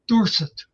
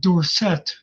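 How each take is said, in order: First: The name is said the plain, ordinary way. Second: The name is said the fancier, changed way. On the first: This is how the family and his college said it. "when he was at Pitt, he was Tony Dorsett" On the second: This is the newer version adopted after he turned pro. "it became fancy"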